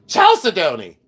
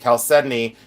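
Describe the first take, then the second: First: The word is yelled out loudly. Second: The word is said at a calm, normal volume. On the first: This is how older people say it. "but you have to yell it. You have to say Chalcedony. That's the way the old people say it" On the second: This is how the speaker personally says it. "I say chalcedony"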